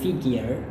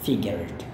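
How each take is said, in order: First: It is said with an American pronunciation. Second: It is said with a British pronunciation. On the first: "Kebanyakan orang Amerika bilang figure" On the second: "Terutama kalau British memang cuma figured"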